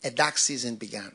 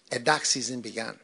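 No difference in how they are said.

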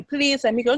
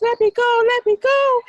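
First: Said in the usual way. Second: High, loud desperate cry; panicked pleading. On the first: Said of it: "He didn't say". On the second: Acted. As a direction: beg frantically to be let go.

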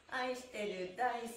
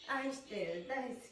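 The two takes are said the same way.

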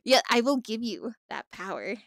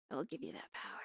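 First: Said in the usual way. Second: Low, much softer ominous take on give; hammed-up villain hush; mock ominous murmur. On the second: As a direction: drop to a low sinister murmur. Repeated as dramatic echo.

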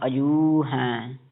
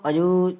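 First: ਅਜੂ with a long, held "oo"; drawn-out "ajooo" in ਅਜੂ; lengthened vowel. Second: ਅਜੂ with the final "oo" cut short; short vowel demo. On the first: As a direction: stretch the end of ਅਜੂ slowly. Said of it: "ਇਹ ਲੰਮਾ ਕਰਨਾ". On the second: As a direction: say ਅਜੂ with a brief last vowel. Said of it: "ਜੂ ਛੋਟਾ ਹੀ ਪੜ੍ਹਦੇ ਆ". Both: Shown as a demonstration.

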